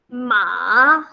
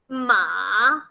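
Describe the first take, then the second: First: The pitch dips down, then rises. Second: The pitch dips down, then rises.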